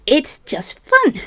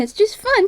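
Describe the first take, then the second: First: Slow, drawn-out "fun" with a rising sarcastic lilt. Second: High breezy "fun", tossed off lightly; carefree voice. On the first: Real, not acted. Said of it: "Oh, is it not fun tonight?". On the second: Retold or imitated. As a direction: shrug it off, "fun" quick and light. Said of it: "I'm the kind of person that goes".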